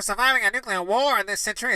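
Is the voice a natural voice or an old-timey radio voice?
old-timey radio. It is read in an old-timey radio announcer voice.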